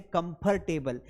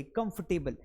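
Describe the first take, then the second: First: कंफर्टेबल said "kum-fur-te-bal", R pronounced; wrong way, R sounded. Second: कंफर्टेबल said "kumf-te-bal", no R; right way, say along. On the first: Teacher demonstrates the common mistake: कंफर्टेबल with the R sounded. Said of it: "कई लोग बोलते हैं कंफर्टेबल". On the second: Teacher asks students to repeat after him: कंफर्टेबल with no R. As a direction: softly model "kumftebal" for कंफर्टेबल. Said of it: "मेरे साथ उच्चारित करिए". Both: Shown as a demonstration.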